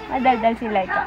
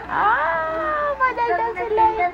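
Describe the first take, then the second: First: Said in the usual way. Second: Very high, drawn-out coo. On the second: Real, not acted. Mother to her chatty baby, high cooing.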